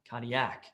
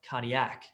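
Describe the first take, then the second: The two takes are said the same way.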